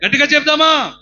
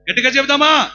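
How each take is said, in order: First: Loud high repeated call; preacher repeating his call; louder call. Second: Loud, high call to the crowd; rally the congregation; preacher calling out to the crowd. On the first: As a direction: push the crowd harder. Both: Real, not acted.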